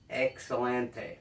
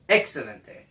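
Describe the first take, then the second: First: The word is said plainly, without flair. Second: The word is said with dramatic flair. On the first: The speaker calls it wrong. "Not excelente" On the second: The speaker calls it right.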